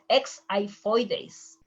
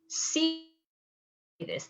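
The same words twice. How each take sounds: First: The word does not start with an S sound. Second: The word starts with an S sound. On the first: The speaker calls it wrong. "It's not xiphoides" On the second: The speaker calls it right. "sounds like an S"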